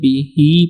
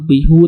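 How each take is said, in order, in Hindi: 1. इस शब्द का अंत 'i' स्वर से होता है। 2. इस शब्द का अंत 'u' स्वर से होता है। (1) "बिही पढ़ेंगे। हा के नीचे स्टैंडिंग ज़ेर पढ़ेंगे" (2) "हम बिहू नहीं पढ़ेंगे"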